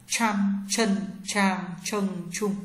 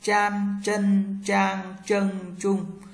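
First: "Chan, chân, trang, chân, trung" with curled tongue and a puff of air; heavy breath-released ch on "Chan, chân, trang, chân, trung"; aspirated retroflex ch. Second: "Chan, chân, trang, chân, trung" with curled tongue, no puff of air; light unaspirated zh on "Chan, chân, trang, chân, trung"; retroflex zh. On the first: Teacher drills ch for learners, "Chan, chân, trang, chân, trung" aspirated. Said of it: "C H cong lưỡi bật hơi trở nặng". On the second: Teacher drills zh for learners, "Chan, chân, trang, chân, trung" unaspirated. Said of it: "Z H cong lưỡi".

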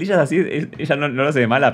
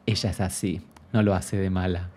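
First: Sarcastic, sing-song parroting of the excuse; mock the lame excuse by parroting it; scornful echo of "ella es así"; mocking repeat. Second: Said in the usual way. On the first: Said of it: "Ay, el, el". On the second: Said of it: "Yo la justificaba diciendo".

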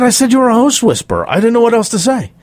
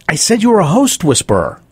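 First: High, fast defensive repeat; retold flustered confession. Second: Higher-pitched, measured awkward admission; retold sheepish confession. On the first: Producer repeats his confession to coach, flustered and high-pitched. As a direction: blurt it out in a rush, acting out. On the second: Producer admits to the coach what he said, sheepish retelling. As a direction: own up to it, retold.

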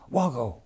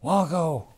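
First: First call, raised and falling at the end; calling out a name. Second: Second call, higher and louder, falling away. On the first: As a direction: call his name across the ruins. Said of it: "I heard the colonel hollering". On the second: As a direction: call again, higher, more urgent. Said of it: "up there hollering". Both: Retold or imitated.

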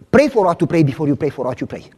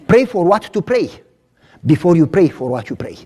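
First: Rattled off fast as a tongue twister; fast tongue-twister delivery; quick first run. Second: Slowed down, each word placed; slow it down so they get it; deliberate slower take. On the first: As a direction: fire it off at speed. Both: Shown as a demonstration. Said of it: "I'm gonna say it slow now".

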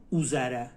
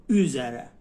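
First: "او زره" starting on an undotted u; mispronounced back u. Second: Louder "او زره" with rounded ü; correct dotted ü. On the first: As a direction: say "او زره" as oo-zere, with Persian u. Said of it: "این مثلاً اینطوری نباید تلفظ کنی". («او زره» با «او»ی فارسی) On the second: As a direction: say "او زره" as üzere, fronted first vowel. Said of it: "اینطوری نباید تلفظ کنی". («او زره» با صدای ü) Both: Shown as a demonstration.

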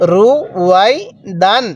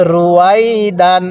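First: "রু", "Y", "দান" separated by pauses; syllable by syllable. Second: "রুয়াই দান" run together without breaks; joined-up reading. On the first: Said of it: "এরকমভাবে শিখব". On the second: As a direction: glide "রু" straight into "Y" and "দান". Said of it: "তাহলে". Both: Shown as a demonstration.

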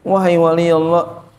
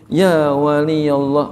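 First: Said in the usual way. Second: Slow and hushed, calling a saint gently; speaking gently so the young saint won't run off; soft, gentle call. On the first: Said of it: "Imam Shibli tahu kalau ini wali Allah". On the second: Retold or imitated. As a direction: address him softly and tenderly, unhurried. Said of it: "dengan suara yang lirih, suara yang lembut".

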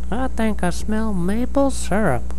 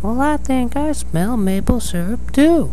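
First: High-pitched little mole voice; Papa Mole. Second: Mama Mole. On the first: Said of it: "turned to Mama Mole and said". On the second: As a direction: play the mama mole, pitched way up. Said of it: "Mama Mole said". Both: Acted.

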